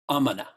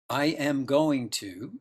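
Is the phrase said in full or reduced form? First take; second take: reduced; full. First: The words are contracted and run together. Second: Every word is said fully and separately.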